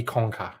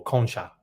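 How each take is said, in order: First: "conca" with a hard K in the middle; "conca" with K replacing the CH; guessed pronunciation. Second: "concha" with a CH in the middle; "concha" with CH as in "church"; alternative pronunciation. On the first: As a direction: say "conca" as "KONG-ka". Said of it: "I guess that would be". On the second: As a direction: say "concha" as "KON-cha". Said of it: "Okay, or". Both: Shown as a demonstration.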